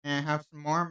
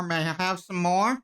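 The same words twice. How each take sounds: First: Said in the usual way. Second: Louder insistent ask. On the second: Acted. Asking louder for water.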